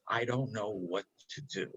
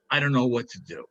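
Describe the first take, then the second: First: "I don't know what to do" said lower and softer, weighted; operative phrase, set apart. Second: Said in the usual way. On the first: Shown as a demonstration. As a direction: lean on "I don't know what to do" as the key line. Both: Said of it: "That's the operative phrase".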